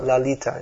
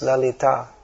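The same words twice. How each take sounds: First: The stress is on the middle syllable. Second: The stress is on the final syllable. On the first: The speaker calls it wrong. "So it's also not Lalita, ... as in English, the stress is put on the penultimate syllable" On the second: The speaker calls it right. "it's Lalita. ... in female names like Lalita and Manjari, it's usually on the last syllable"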